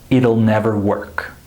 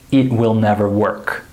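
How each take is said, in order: First: It will is contracted to one word, it'll. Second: It will is said as two full words. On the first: The speaker calls it right. "We would say" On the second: The speaker calls it wrong. "We wouldn't say"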